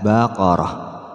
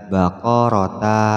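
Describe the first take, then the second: First: The word ends with a soft h sound. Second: The word ends with a short ta sound. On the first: The speaker calls it right. "maka dibaca ha" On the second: The speaker calls it wrong. "Tidak boleh dibaca baqarata"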